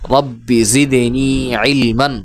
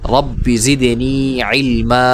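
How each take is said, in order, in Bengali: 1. শেষ শব্দটি n ধ্বনি দিয়ে শেষ হয়। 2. শেষ শব্দটি স্বরধ্বনি দিয়ে শেষ হয়।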